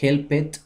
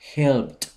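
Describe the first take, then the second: First: The ending is an extra syllable, "id". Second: The ending is a short, sharp t sound. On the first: The speaker calls it wrong. "aquí no se lee help it" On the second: The speaker calls it right. "el sonido al final va a ser el de una T explosiva"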